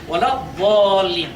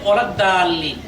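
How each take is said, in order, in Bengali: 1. d ধ্বনিটি ভারী ও জোরালো। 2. d ধ্বনিটি হালকা ও সাধারণ। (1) "দাল্লিন না হয়ে এই যে দোয়া দেখতে পাচ্ছেন হবে" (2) "অনেকে বলে থাকেন"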